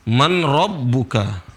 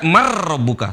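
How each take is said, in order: First: The n is pronounced clearly before the r. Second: The n merges fully into a doubled r. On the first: The speaker calls it wrong. "Gak boleh dibaca man" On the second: The speaker calls it right. "Seolah-olah nun gak ada"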